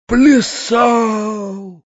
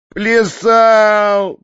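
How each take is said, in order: First: High, drawn-out cry of horror; horrified cry. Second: Loud, high, tearful bawl; sobbing roar. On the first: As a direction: cry out aghast, stretching the word. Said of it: "вскрикнул в ужасе дядя". (крик ужаса) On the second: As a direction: bawl it out like a weeping boy. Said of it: "проревел Фалалей, всхлипывая". (рёв сквозь всхлипы) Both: A narrator's reading.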